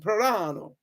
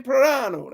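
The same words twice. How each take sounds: First: "Plorano" rolled out in a light mock Italian accent. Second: Said in the usual way. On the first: Shown as a demonstration. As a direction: say "Plorano" like a proud Italian name, lightly hammed. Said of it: "I have to say it with an accent". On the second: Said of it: "That seems like a real strong Italian name".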